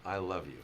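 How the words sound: It is said in a calm, positive, neutral tone. "positive, clear, neutral way"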